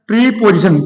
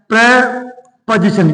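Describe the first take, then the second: First: The first syllable has a long 'ee' vowel. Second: The first syllable has a short 'e' vowel. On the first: The speaker calls it wrong. "इसका जो pronunciation है थोड़ा गलत है" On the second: The speaker calls it right. "सही तरीका"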